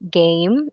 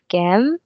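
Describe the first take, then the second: First: The vowel is the long A sound. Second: The vowel is a different, non-A sound. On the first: The speaker calls it right. "we actually use the A sound for that. So we say game" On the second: The speaker calls it wrong. "instead of game"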